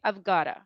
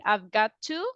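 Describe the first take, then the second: First: The words are run together into one. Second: The words are said fully and separately. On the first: "you can put it together" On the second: "instead of saying I've got to"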